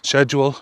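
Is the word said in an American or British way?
British. The word is said the British way.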